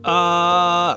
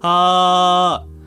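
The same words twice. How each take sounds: First: It sounds strained, with too little airflow. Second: It sounds relaxed, with plenty of airflow.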